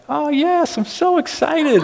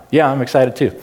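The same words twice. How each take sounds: First: High-pitched bubbly wife. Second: Excitement that fails to come out; low-key attempt at excitement. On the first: Retold or imitated. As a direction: imitate an excited wife in a squeaky-high voice. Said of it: "when I do the high-pitched voice". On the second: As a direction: try to sound excited and stay completely even. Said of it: "It just doesn't happen".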